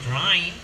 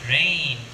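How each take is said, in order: First: The vowel is broad, like the vowel in 'eye'. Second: The vowel is standard, like the vowel in 'day'. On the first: The speaker calls it wrong. "It's not" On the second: The speaker calls it right.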